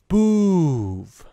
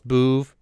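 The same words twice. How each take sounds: First: The vowel is drawn out like a breath. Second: The vowel is said short and clipped. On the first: The speaker calls it right. "It must to draw it out like a long breath" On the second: The speaker calls it wrong. "The way you say it is too short"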